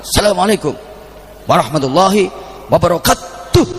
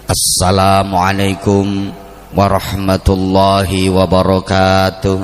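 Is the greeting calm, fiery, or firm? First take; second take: firm; calm. First: It is said firmly and crisply, like a command. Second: It is said in a calm, measured way. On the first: It carries a military habit of speech. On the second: It opens an ordinary speech. "Nek wong pidato"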